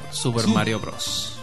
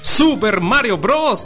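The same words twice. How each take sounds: First: It is said at a normal, quieter volume. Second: It is said loudly, with raised volume.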